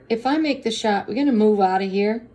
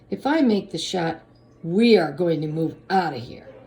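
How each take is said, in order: First: The voice rises at the end like a question. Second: The voice falls at the end like a statement. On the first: It is asked as a question. The speaker calls it wrong. "I said that like a question" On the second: It is stated as a certainty. The speaker calls it right. "he was not saying that as a question"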